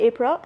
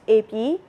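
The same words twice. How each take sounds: First: APRIL said the English way, with the R and L; English pronunciation. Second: A P for April, "ay-pee" without R or L; Burmese pronunciation. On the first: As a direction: say APRIL as English does, "AY-pril". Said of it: "In English, they say April". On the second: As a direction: say A P the Burmese way, dropping April's ending. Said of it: "not April". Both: Shown as a demonstration.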